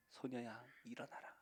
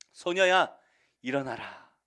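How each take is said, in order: First: Soft, hushed repeat of the call; quiet, intimate echo; gentle repeat. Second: Full-voiced summons to rise; commanding call. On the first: Acted. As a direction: whisper the command tenderly. Repeat of the command. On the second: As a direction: raise her with a ringing command. Jesus raising the girl.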